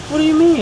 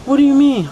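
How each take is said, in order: First: High confused voice; imitating Tiffany. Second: High, louder confused voice; imitating Tiffany. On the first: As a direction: play her high and baffled. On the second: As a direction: play her high and loud. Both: Voicing Tiffany in story.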